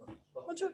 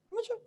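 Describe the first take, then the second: First: High, soft mock student voice; mock unsure student. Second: Said in the usual way. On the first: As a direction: echo it back higher and softer, as a timid student. Mimics a hesitant student. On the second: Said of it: "you understand?".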